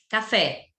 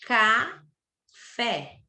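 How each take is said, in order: First: Said in the usual way. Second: CAFÉ stretched as caa, fé; slow, by syllables. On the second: Shown as a demonstration. Teacher showing duas sílabas, CAFÉ said slowly in two beats. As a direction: split CAFÉ in two with a long pause. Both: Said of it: "Fala devagar".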